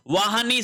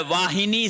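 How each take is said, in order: First: वाहनी with "ha", no i; wrong pronunciation. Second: वाहिनी with "hi"; correct pronunciation. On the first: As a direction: say "vaa-ha-nee" for वाहनी. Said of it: "नहीं होता है". (वाहनी में "ह" बिना इ के) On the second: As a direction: sound the i in वाहिनी, "vaa-hi-nee". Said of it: "वाहिनी शब्द होता". (वाहिनी में "हि" साफ़) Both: Shown as a demonstration.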